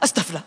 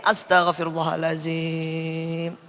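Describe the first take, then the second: First: It is said fast and hurriedly. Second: It is said slowly and with feeling.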